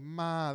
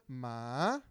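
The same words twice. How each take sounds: First: The syllable is said on a level mid pitch. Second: The syllable dips low and then rises. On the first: It means come here. "that means come here, come" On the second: It means dog. "that third one means dog"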